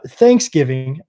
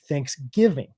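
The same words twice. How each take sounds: First: The stress is on the first syllable. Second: The stress is on the second syllable. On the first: This is how a Southern speaker says it. "Southern people really emphasize that first syllable" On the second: This is how a non-Southern speaker says it. "I say Thanksgiving"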